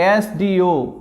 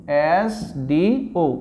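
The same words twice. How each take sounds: First: Said in the usual way. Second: "एस डी ओ" slowly, each letter separate; drawn-out pronunciation. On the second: Shown as a demonstration. Teacher showing an example to students, "एस डी ओ" letter by letter. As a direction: stretch and space out "एस", "डी", "ओ". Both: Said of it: "अब इस उच्चारण देखते हैं इसका".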